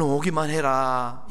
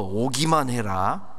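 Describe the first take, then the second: First: It is said in a warm, inviting tone. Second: It is said in a stern, threatening tone. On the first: The speaker is eager to welcome and reward. "얼른 오기만 해라 이러고 하는 게 아니라" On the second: The speaker is angry and warns of punishment. "말투를 바꿔가지고"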